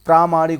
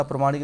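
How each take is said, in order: First: प्रामाणिक loud, with a long first aa; correct form stressed. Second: Said in the usual way. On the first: Shown as a demonstration. Teacher stressing the right form for students, loud long first syllable. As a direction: hit the long प्रा of प्रामाणिक. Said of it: "प्रामाणिक होता". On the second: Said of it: "प्रामाणिक नहीं होता".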